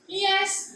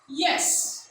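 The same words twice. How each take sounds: First: The pitch stays level on the word. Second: The pitch falls on the word. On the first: "for the level tone is yes" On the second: "for the falling tone"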